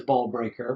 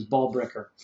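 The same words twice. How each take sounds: First: "ball breaker" with BREAKER said like "brayker"; long AY vowel in "breaker"; nickname pronunciation. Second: "ball breaker" with BREAKER said as "bricker"; short I vowel in "breaker", as in brick; real-name pronunciation. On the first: Podcaster giving the character's nickname, clear "brayker" sound. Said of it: "that's what they call her". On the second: Podcaster correcting to the real name, short "bricker" sound. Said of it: "but her name is". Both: Shown as a demonstration.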